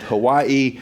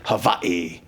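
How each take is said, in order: First: It is said with the usual American pronunciation. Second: It is said with the local Hawaiian pronunciation. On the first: "I just try to stick with Hawaii" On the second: "people in Hawaii would say Hawaii"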